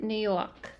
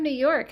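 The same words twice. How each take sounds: First: Light put-on New York accent; playful New York accent. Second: Said in the usual way. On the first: Greeting a New York viewer, light New York accent. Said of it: "my New York accent". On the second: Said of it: "I just did my little accent".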